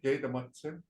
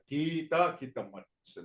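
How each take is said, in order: First: The word is said in a shortened, simplified form. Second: The word is said in its full, longer form. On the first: It is a simplified version made easy to say. "they kind of like made it so that it's easy to say" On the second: It is the proper traditional version. "That's the proper way to say this"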